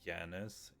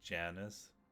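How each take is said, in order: First: The name begins with a Y sound. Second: The name begins with a J sound. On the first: This is how the name is said in Swedish. "J is just pronounced Yi" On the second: This is how the name is said in English. "in English, you do like a little the the J"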